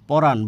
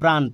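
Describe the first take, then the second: First: A vowel is inserted between the opening consonants. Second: The opening consonants are said together as a cluster.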